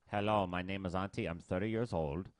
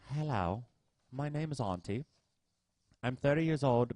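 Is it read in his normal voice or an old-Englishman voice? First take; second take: normal voice; old-Englishman voice. First: It is read in his normal voice. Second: It is read in an old Englishman voice.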